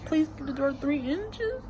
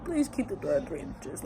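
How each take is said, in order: First: High, soft quoted line; quoting the letter. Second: Said in the usual way. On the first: Retold or imitated. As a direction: read it out higher and softly, touched. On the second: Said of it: "for your dear old dad".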